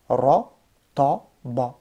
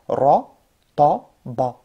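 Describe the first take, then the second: First: All three syllables sound heavy and dark. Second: The same.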